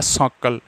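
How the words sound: The word begins with an s sound. This is the form with the regional sound changed back. "अगर मैं इस है को वापिस सै बोल दूं तो ये बोला जाएगा साकल।"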